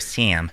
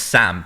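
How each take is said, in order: First: The name is said in an American accent. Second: The name is said in a British accent. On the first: Listeners understand the name. The speaker calls it right. "I have to go Sam" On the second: Listeners mishear the name. The speaker calls it wrong. "they think it's Sal"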